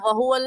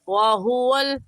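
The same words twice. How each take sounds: First: The first w is said with unrounded lips. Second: The first w is said with rounded lips. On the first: The speaker calls it wrong. "तो वहुवल नहीं कहना" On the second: The speaker calls it right. "होठों को गोल करके अदा करें इस लफ्ज़ को"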